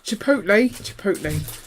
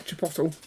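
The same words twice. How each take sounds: First: Chipotle said as chi-POHT-lay; careful chi-POHT-lay for chipotle; correct chipotle. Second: Chipotle said as chi-POT-ul; wrong chipotle. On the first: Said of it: "that's how you say that". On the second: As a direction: say chipotle ending in -tul. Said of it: "It's not, not chipotle". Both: Shown as a demonstration.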